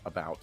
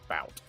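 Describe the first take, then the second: First: The word is said in full with its first vowel. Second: The word is clipped, dropping its first vowel. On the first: The speaker is paying attention to how it is said. "When I when I'm thinking about it, it's it's about" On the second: The speaker is talking without paying attention. "But when I'm not really thinking, it's bout"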